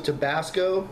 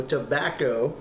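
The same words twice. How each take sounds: First: Tabasco said as tə-BAS-co, the hot sauce; slip of the tongue. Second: Tobacco said tə-BAC-co with a hard K; self-correction. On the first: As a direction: Tabasco with a short flat A and hard S. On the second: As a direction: tobacco corrected with a small laugh. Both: Real, not acted. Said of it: "not Tabasco".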